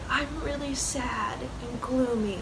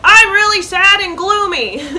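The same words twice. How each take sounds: First: The voice is breathy, with extra air. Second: The voice is clear and full, with no air. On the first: The speaker calls it right. "It would be like, ... even in speaking voice, we add that air" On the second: The speaker calls it wrong. "you're not going to be like"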